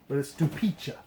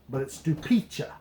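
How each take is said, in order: The two takes are said the same way.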